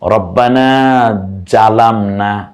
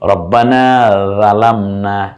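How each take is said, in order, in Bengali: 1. দ্বিতীয় শব্দটি j ধ্বনি দিয়ে শুরু হয়। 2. দ্বিতীয় শব্দটি নরম th ধ্বনি দিয়ে শুরু হয়। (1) "ওস্তাদ জিম দিয়ে বলেছেন।" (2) "ওস্তাদ রাল দিয়ে বলেছেন"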